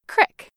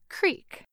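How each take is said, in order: First: It has a short ih vowel, Appalachian. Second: It has a long ee vowel, general American.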